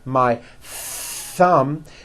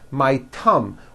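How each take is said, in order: First: Thumb begins with a th sound. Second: Thumb begins with a t sound. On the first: The speaker calls it right. "notice how my tongue is coming out" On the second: The speaker calls it wrong. "you've been saying thumb"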